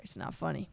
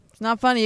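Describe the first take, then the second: First: Soft, still giggling; laughing. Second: Louder, straight-faced correction; mean it this time; firm. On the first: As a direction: try to stop laughing. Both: Real, not acted.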